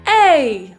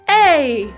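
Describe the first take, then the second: No difference in how they are said.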